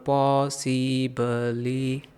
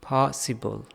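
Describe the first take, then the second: First: Every vowel is said full and evenly. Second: The first vowel is stressed, the rest reduced. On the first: The speaker calls it wrong. "ऐसे नहीं पढ़ना" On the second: The speaker calls it right. "ओ को ज़्यादा पढ़ा, stress दिया ना"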